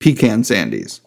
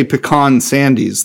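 First: "pecan" said PEE-can, before "sandies". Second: "pecan" said puh-KAHN, before "sandies". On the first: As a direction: stress the first syllable of "pecan", with a short A in "can". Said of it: "I would say". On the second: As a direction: stress the second syllable of "pecan", with an open AH. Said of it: "I would never say pecan sandies". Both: Shown as a demonstration.

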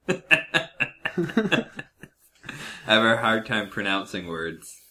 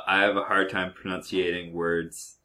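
First: Said in the usual way. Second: "pronunciating" said with extra syllables for "pronouncing"; mispronounced word. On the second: Real, not acted. Host confessing a speech impediment, saying "pronunciating" for "pronouncing". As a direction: fumble it as "pro-nun-see-ay-ting".

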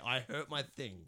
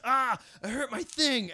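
First: Said in the usual way. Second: High, loud, drawn-out yelp; imitated scream. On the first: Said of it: "just to say". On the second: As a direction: re-enact the over-the-top scream. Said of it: "So he just screams".

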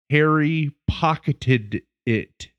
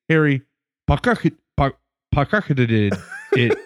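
First: HARRY POCKETED IT spaced out slowly, word by word; "Harry pocketed it", drawn out to get it out; super slow. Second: Imitated tongue-twister fumble on "pocketed it"; tongue-tied stumble. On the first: Retold or imitated. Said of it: "super slow to get it out". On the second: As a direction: trip over POCKETED, breaking off and restarting on "pock". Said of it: "if he said it too fast".

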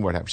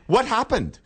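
First: Said in the usual way. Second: High-pitched bad English accent; amateur Cockney impression; mock Cockney. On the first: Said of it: "And I said". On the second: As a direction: imitate a Cockney woman asking, voice pitched up. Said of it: "she was real cockney".

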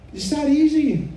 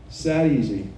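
First: EASY swooping up high, then falling; emphatic reassurance. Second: Said in the usual way. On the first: Real, not acted. Urging someone to simply confess, high and emphatic. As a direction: lift "easy" far above your usual pitch.

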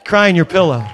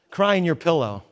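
First: Louder, punchy preacher's repeat; louder preached command; emphatic repeat. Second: Said in the usual way. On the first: Shown as a demonstration. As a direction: drive the line home with force. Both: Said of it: "I'm gonna tell you this".

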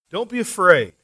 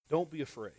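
First: Don't be afraid with a firm fall on be, pressed home; emphatic repeat. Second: Soft quote. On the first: Preacher repeats Jesus' words firmly to the congregation. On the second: Preacher quietly reads the verse to the congregation. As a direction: read Jesus' words gently, almost under the breath. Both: Shown as a demonstration.

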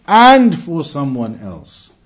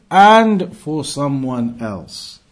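Both takes have the same delivery.

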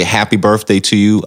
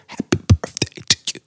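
First: Said in the usual way. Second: "Happy birthday to you." shaped with air only, no voice, fast; voiceless talk box mouthing. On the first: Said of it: "So if I wanna say". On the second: Shown as a demonstration. Demonstrating the talk box to the host, voiceless mouthed words. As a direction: mouth "Happy birthday to you." on breath alone, quick and unvoiced. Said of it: "I'll just say".

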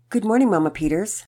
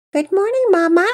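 First: Said in the usual way. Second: Loud, very high little-kid imitation; high-pitched. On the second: A narrator's reading. Pearson pretending to be Patience for Mama Peters, high-pitched. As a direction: pipe it up high, pretending to be a younger child. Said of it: "said in a high-pitched voice".

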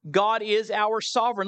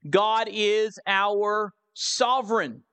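First: Said in the usual way. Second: Measured announcement, pause before "sovereign"; slow, deliberate. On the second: Real, not acted. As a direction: spell out the heading slowly and weightily. Announces second point with weight.

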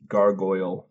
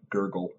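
First: "gargoyle" slowly, as GAR-goyl; slow teaching "gargoyle", GAR then GOYL; correct pronunciation. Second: "gurgle" with GUR in place of gar-goyl; "gurgle", the oy sound dropped; wrong pronunciation demo. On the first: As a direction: spell out "gargoyle" by sound, clear oy in the second syllable. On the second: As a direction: show gargoyle misread as "gurgle". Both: Shown as a demonstration. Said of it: "not gurgle".

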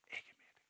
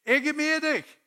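First: Intimate whisper; whispered assurance. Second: Loud, very high call; Haugesund football shout. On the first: Acted. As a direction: whisper it as a personal promise. (hviskende, nær forsikring) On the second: Shown as a demonstration. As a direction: yell it across the pitch to a teammate. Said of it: "Sånn roper vi i Haugesund". (høyt, lyst rop)

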